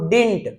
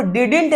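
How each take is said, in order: First: Didn't said as one syllable, dint; didn't with its middle d kept silent. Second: Didn't with the middle d spoken, did-int; sounding the middle d in didn't; wrong way, middle d sounded. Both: Shown as a demonstration. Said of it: "ये बीच वाला डी silent है".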